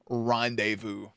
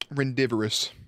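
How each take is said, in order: First: The middle sounds like 'day', with no extra syllable. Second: The middle sounds like 'divor', with an extra syllable. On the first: The speaker calls it right. "I caught myself like 5 seconds later" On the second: The speaker calls it wrong. "So here's how I read it"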